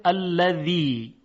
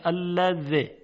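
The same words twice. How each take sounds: First: الذی with the last vowel drawn out long; long final ya. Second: الذی ending on a short, cut-off i; dropped long ya. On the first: Teacher shows the word standing alone, long final vowel. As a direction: stretch the closing i of الذی slowly. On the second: Teacher shows the ya dropped when joining, short final vowel. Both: Shown as a demonstration.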